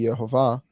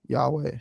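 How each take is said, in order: First: The middle consonant is a v sound. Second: The middle consonant is a w sound. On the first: "where the vav is a v sound" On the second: "if you pronounce the vav as a w sound"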